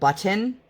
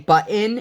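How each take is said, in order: First: The middle sound is clearly pronounced. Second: The middle sound is dropped or swallowed. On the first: The speaker calls it right. "instead of button" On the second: The speaker calls it wrong. "the people who say button"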